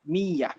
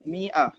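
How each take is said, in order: First: A y sound is in the middle. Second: A glottal stop is in the middle.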